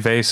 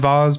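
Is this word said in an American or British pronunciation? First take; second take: American; British. First: It is said with an American pronunciation. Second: It is said with a British pronunciation. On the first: "Americans say vase" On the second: "Brits say vase"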